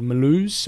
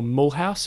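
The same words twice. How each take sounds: First: The name is said the French way. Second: The name is said the German way.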